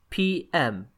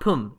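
First: It is said as two separate letters. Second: It is said as one single syllable. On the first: The speaker calls it right. "9 p.m" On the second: The speaker calls it wrong. "not pum, even though it seems like it might be a word"

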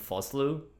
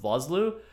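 First: The name is said with a South African pronunciation. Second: The name is said with a usual English pronunciation. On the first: "they were all calling him Foslu. And so that's the best replication of that I can do" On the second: "I've heard him referred to as Arnold Vosloo"

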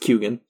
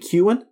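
First: The name is said with a G sound. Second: The name is said without a G sound. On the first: "He says that the G is in there" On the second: "Irish people will probably say"

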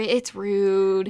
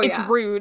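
First: It is said softly and apologetically. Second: It is said flatly and bluntly. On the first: She is gently excusing herself. "she probably actually said it like, oh, sorry, no" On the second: She is coldly calling him out. "stone-faced and direct"

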